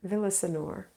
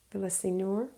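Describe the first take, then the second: First: Villasenor with an unstressed "suh" in the middle; VIL-uh-suh-nor. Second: Villasenor with "see" in the middle, rising; questioning VIL-uh-see-nor. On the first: Host trying a viewer's surname, Villasenor said as VIL-uh-suh-nor. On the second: Host unsure of a viewer's surname, Villasenor asked as VIL-uh-see-nor. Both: Real, not acted.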